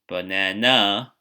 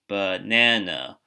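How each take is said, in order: First: The stress falls outside the middle syllable. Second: The stress falls on the middle syllable. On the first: The speaker calls it wrong. "we don't say banana" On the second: The speaker calls it right. "We say this middle syllable louder and maybe a little bit longer"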